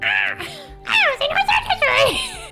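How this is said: It is said in a Toad from Mario voice.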